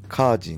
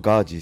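First: The name begins with a voiceless k sound. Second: The name begins with a voiced g sound. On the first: The speaker calls it right. "ガーシーじゃなくてカージーね" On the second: The speaker calls it wrong. "これ僕のことガージーさん"

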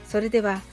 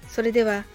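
Both takes have the same delivery.

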